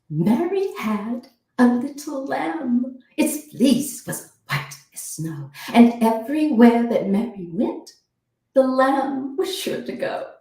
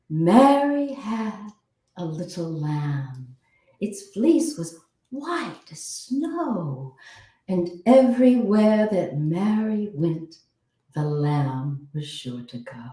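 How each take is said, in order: First: The consonants are crisp and emphasized. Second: The vowels are drawn out and emphasized.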